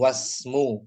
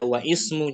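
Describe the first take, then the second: First: The 'i' vowel is dropped, linking straight into 'smu'. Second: The 'i' vowel is pronounced separately after 'wa'. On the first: The speaker calls it right. "Langsung wasmu" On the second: The speaker calls it wrong. "jangan jangan dibaca wa ismu, jangan ya"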